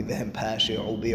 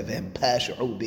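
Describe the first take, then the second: First: Said in the usual way. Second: "pashi'u" run together as PASH-u, Syrian style; Syrian-accented Hebrew, "pashi'u" squeezed shorter. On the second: Retold or imitated. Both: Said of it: "to be real Syrian in that".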